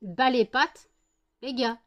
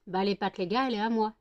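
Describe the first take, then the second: First: Louder, possessive dog voice; voicing the dog. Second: Said in the usual way. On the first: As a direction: speak as a jealous dog guarding her. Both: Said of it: "faut qu'ils montrent".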